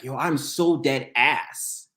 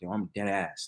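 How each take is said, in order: First: Non-New Yorkers' slang, each word carefully pronounced. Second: New York slang, said smoothly and casually.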